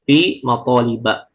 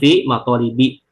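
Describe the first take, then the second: First: The last word ends with an 'a' vowel. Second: The last word ends with an 'i' vowel. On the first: The speaker calls it right. "maka kita bacanya fi maqaliba" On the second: The speaker calls it wrong. "bukan fi maqalibi, itu salah"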